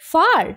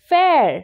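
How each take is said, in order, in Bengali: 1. এই স্বরধ্বনিটি car-এর স্বরধ্বনির মতো শোনায়। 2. এই স্বরধ্বনিটি air-এর স্বরধ্বনির মতো শোনায়। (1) "না" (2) "এফ এ আর ই হয় ফেয়ার"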